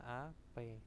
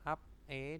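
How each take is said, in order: First: The consonant links onto the second syllable. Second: The syllables are said separately, without linking.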